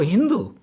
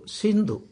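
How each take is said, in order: First: The word begins with an H sound. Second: The word begins with an S sound. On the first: This is how foreigners pronounced the name. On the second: This is the local name of the river.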